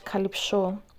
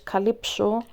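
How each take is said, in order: First: The name is said with a Greek pronunciation. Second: The name is said with an English pronunciation. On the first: "Greek it's Calypso" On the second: "in English it's Calypso"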